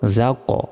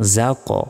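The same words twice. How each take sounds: Both takes have the same delivery.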